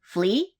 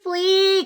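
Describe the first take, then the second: First: "Flea" short, low, with a rising end; questioning address. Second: High, drawn-out call of "Flea". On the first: Popper warning Flea before cutting, questioning "Flea". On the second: Popper summoning Flea to the bandit, high calling-out. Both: Acted.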